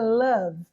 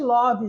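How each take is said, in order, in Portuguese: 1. A vogal soa como um 'a'. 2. A vogal soa como um 'o'. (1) "é love ... igual de lã" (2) "Não existe love"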